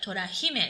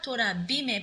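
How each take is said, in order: First: The second word begins with an h sound. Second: The second word begins with a b sound. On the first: The speaker calls it right. "but Tora Hime. So pronunciation doesn't change in this case" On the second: The speaker calls it wrong. "not Tora Bime"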